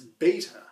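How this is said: It is said the North American way. "for us in North America it's beta"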